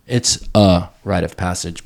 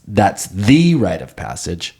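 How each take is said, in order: First: "a" set apart and emphasized, pronounced as a full vowel; stress on A. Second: THE drawn out and raised in pitch, pronounced "thee"; stress on THE. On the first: Clarifying it is one rite among others, stress on "a". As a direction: lean on "a" as just one of several. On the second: Correcting himself on rites into manhood, stress on "the". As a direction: lean slowly on "the" as the one and only. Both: Real, not acted. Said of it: "Not to say that's".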